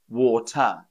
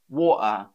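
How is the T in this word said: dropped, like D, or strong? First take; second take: strong; dropped. First: The T is pronounced clearly and strongly. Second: The T is left out completely. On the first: This is how a British speaker says it. "a Brit pronounces the T a bit more strongly" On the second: This is how some other British speakers say it. "some British people drop the T altogether"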